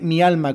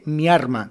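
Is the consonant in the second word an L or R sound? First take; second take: L; R. First: The second word is said with an L sound. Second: The second word is said with an R sound. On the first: "mi alma con L" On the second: "mi arma con R"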